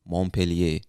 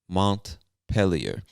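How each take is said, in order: First: The name is pronounced the French way. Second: The name is pronounced the English way. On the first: "this word looks French to me. So you, some people from Vermont might say" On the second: "I believe that's the English speaking pronunciation of the word"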